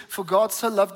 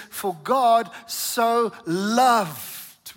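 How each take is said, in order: First: Said in the usual way. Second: "loved" drawn out long and slow; slow build to an emphatic, stretched "loved"; stress on LOVED. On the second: Shown as a demonstration. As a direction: linger heavily on the word "loved". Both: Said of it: "I want to emphasize that".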